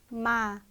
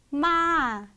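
First: The pitch falls steadily throughout. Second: The pitch rises and then falls. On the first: "쭉 떨어지는 음이죠" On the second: "올라갔다가 내려오는 음이에요"

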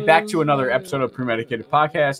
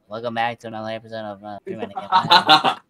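First: It is said in his normal voice. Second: It is said in a deep, manly voice.

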